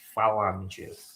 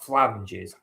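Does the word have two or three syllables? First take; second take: three; two. First: The word is said with three syllables. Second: The word is said with two syllables. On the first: The speaker calls it right. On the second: The speaker calls it wrong.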